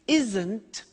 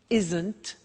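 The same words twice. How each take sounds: Both takes have the same delivery.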